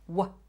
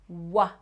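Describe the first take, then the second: First: The consonant is said alone with no vowel. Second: The consonant is followed by an added vowel. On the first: The speaker calls it right. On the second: The speaker calls it wrong.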